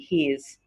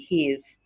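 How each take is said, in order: First: It is said as one contracted word. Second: It is said as one contracted word.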